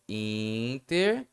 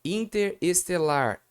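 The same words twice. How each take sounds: First: Interestelar run together as one word; smooth, slow Interestelar with no break; teacher showing the right form; joined together. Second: Interestelar said slowly with a break after inter, the wrong way; drawn-out Interestelar with the parts held apart; teacher showing the mistake; wrong version. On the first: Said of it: "vamos juntar tudo". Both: Shown as a demonstration.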